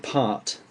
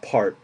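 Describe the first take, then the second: First: The R is silent and the T is clear. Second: The R is strong and the T is swallowed. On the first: "With my accent, I say part. you can hardly hear the R at all" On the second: "With an American accent, that would be more like part. They swallow the T and really accentuate the R"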